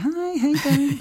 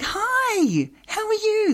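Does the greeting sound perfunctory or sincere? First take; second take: perfunctory; sincere. First: The greeting sounds perfunctory and routine. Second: The greeting sounds warm and sincere.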